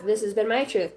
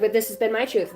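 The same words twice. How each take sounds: First: "my" stressed in "This has been my truth". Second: "this" stressed in "But this has been my truth". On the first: Voicing the other side, stressing "my". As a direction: lean on "my", not on "this". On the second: Voicing one side, stressing "this". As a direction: lean on "this", not on "my". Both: Acted. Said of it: "I don't know why I said it like that".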